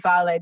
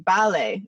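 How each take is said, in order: First: The word begins with a v sound. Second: The word begins with a b sound. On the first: This is the modern Greek form. "it wouldn't be vale" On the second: This is the ancient Greek form. "in ancient Greek it would be bale"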